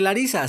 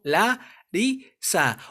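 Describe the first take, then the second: First: Said in the usual way. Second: "la ri sa" split into three separate syllables; "la ri sa" divided slowly for a learner. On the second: Shown as a demonstration. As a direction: say "la... ri... sa" with a clear break between syllables. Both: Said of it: "se separa como".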